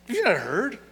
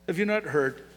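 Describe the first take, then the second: First: It sounds irritated and incredulous. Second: It sounds gentle and straightforward.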